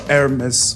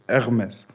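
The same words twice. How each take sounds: First: It is said the English way, with an H. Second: It is said the French way, without the H. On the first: "we say it in English" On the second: "but in French it's"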